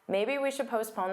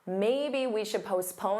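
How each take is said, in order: First: It is quiet, fast and mumbled. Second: It is louder, slower and clearly articulated. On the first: The speaker calls it wrong. "I'm going to mumble. I want you to notice how my volume is quieter, my speech is faster" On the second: The speaker calls it right. "I'll open my mouth wider than I normally would"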